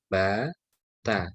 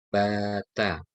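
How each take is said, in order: No difference in how they are said.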